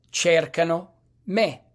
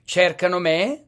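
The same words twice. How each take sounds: First: Said in the usual way. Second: Rising question tune on "me"; question intonation. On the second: Shown as a demonstration. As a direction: ask it, lifting "me" at the end. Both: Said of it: "Punto di domanda".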